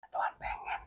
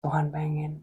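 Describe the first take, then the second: First: Breathy whispered aside. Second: Said in the usual way. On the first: Real, not acted. Preacher tells viewers God's wish, whispered. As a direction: whisper the words to yourself. Repeated phrase, first whispered.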